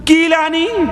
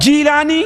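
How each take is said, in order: First: The name begins with a k sound. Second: The name begins with a j sound. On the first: This is the form used by those who could not read the marked letter. "कीलान कह दिया" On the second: This is the form used where Arabic lacks the g sound. "उसका तलफ़्फ़ुज़ जीम से किया"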